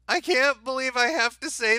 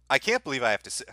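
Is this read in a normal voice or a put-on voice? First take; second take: put-on; normal. First: It is read in an exaggerated put-on voice. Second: It is read in the speaker's normal voice. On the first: The speaker calls it right. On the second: The speaker calls it wrong.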